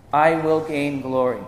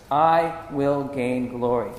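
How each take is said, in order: First: Said in the usual way. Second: Slow, each word given weight; slow emphatic repeat. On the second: Shown as a demonstration. Preacher repeats God's promise from Exodus, slow and emphatic. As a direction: draw the declaration out deliberately.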